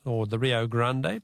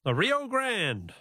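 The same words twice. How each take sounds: First: "Rio Grande" said the Spanish way, ending "Gran-de" with a final "de" syllable; Spanish pronunciation. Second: Said in the usual way. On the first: Shown as a demonstration. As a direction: pronounce "Grande" as Spanish "GRAN-deh", two syllables, unhurried. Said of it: "to give it its Spanish pronunciation". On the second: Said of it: "its Spanish pronunciation".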